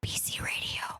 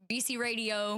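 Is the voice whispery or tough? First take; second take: whispery; tough. First: It sounds like a soft ASMR whisper. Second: It sounds like a tough gangster voice.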